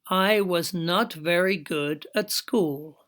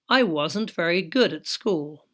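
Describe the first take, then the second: First: Every word is said fully and separately. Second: The verb and not are joined into a contraction.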